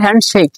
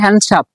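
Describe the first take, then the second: First: The word ends with a k sound. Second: The word ends with a p sound. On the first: The speaker calls it right. "আমরা বলবো হ্যান্ডশেক" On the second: The speaker calls it wrong. "এটা স- ভুল"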